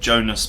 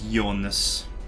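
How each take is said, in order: First: The name begins with a J sound. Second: The name begins with a Y sound.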